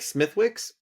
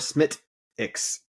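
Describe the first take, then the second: First: The W is pronounced, as the name is spelled. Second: The W is dropped, giving a shorter 'Smittix' sound. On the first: "It looks like Smithwick's" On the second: "you pronounce it Smittix"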